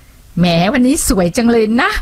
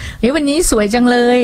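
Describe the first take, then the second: First: Sarcastic. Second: Sincere. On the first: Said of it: "ประชดประชันแดกดัน". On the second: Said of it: "ฟังแล้วดูแบบ จริงใจ". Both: Shown as a demonstration.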